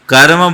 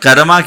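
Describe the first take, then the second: First: The word ends on the consonant m. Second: The word ends with a long a vowel. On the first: The speaker calls it right. "कर्म बोलो ना" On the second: The speaker calls it wrong. "कर्मा क्यों बोलते हैं? ये अंग्रेजी माध्यम का कुपरिणाम है।"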